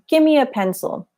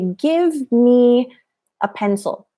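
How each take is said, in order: First: "Give me" is blended together into "gimme." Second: Both words of "give me" are fully pronounced. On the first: The speaker calls it right. "I would say ... So that's an informal contraction" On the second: The speaker calls it wrong. "that enunciation, we don't say"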